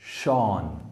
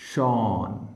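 The two takes are said the same way.

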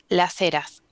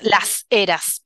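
First: The S is softened into a breathy h. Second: The S is pronounced fully and clearly. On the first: This is how it is said in Patagonia. "en la Patagonia aspiramos las S" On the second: This is not how it is said in Patagonia. "no decimos las eras, por ejemplo, enfatizando la S"

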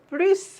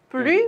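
First: The word ends with an s sound. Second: The word ends without an s sound. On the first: "뿌리스인지" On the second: "뿌리인지"

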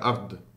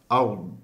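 First: The final consonant is clearly released like a d. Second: The final consonant is swallowed and barely heard. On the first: The speaker calls it wrong. "Heel veel mensen zeggen ard, alsof het een del is" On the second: The speaker calls it right. "hij verdwijnt als het ware"

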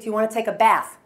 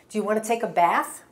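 First: The emphasis is louder without any pitch change. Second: The emphasis is louder with a clear pitch change. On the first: The speaker seems angry or impatient. "I sound like I'm yelling at you" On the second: The question sounds friendly. "I got louder, but my pitch changed"

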